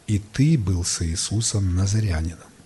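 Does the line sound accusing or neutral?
neutral. It is read in a neutral, non-offensive tone. The remark is a harmless observation. "что-нибудь обидное сказала эта женщина? Нет"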